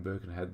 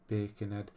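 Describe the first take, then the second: First: Said in the usual way. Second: Half-joking Scouse pronunciation; rough stab at a Scouse accent; attempted Scouse accent. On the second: Shown as a demonstration. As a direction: have a go at it in Scouse. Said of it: "try and say it in a Scouse".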